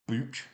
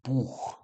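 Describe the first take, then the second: First: The word ends in a hard K sound. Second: The word ends in a soft breathy sound. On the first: The speaker calls it wrong. "with like a sort of hard K, but that's wrong" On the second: The speaker calls it right. "It's a very soft sound"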